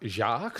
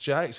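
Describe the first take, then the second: First: The name is said the French way, like 'zhahk'. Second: The name is said anglicized, rhyming with 'makes'. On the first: The speaker calls it wrong. "So not then Jacques" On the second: The speaker calls it right. "it's Jakes, right?"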